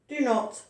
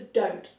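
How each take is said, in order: First: It is said as two full words. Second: It is said as one contracted word. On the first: This form suits formal writing. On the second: This form is used when speaking. "which is shortened to don't"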